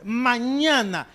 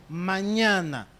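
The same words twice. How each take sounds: First: Mañana drawn out very slowly and said louder; stress on mañana. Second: Said in the usual way. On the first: Acted. Moses warning Pharaoh, with Mañana stretched out slowly and louder. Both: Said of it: "repeats mañana with emphasis".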